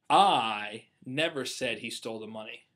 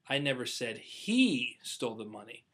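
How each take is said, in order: First: The stress is on "never". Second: The stress is on "he".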